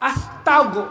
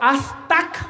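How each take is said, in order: First: The syllable ends with a g sound. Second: The syllable ends with a k sound. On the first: The speaker calls it right. "গইন কি উচ্চারণ করতে হবে?" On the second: The speaker calls it wrong. "আস্তাক হবে না"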